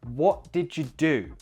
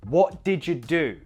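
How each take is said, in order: No difference in how they are said.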